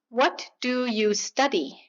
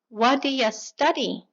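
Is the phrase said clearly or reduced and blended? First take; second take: clear; reduced. First: Each word is said clearly and separately. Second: The words are reduced and blended together quickly. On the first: "Clean, unreduced" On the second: "普通のネイティブがこのように"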